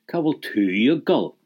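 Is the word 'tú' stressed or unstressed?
stressed. The word 'tú' is said with extra stress. The person asked is being emphasized. The speaker calls it wrong.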